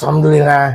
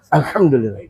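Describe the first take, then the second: First: It sounds grudging and reluctant. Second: It sounds sincere and heartfelt.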